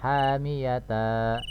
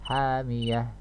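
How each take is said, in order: First: The word ends with a ta and a vowel. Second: The word ends with a stopped h sound. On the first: The speaker calls it wrong. "Tidak dibaca misalnya hamiyata, tidak ya" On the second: The speaker calls it right. "tapi disukunkan dirubah menjadi huruf H"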